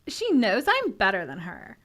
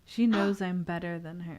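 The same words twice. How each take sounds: First: It is said in a mean put-on voice. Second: It is said in her plain reading voice.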